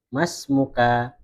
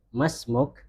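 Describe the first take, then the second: First: The word ends with a final vowel. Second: The word ends on a bare consonant. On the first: This is the form used when reading aloud. "kalau kita membaca kan bacanya mas muka" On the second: This is the form used in real conversation. "kalau kita percakapan asli itu belakangnya disukun"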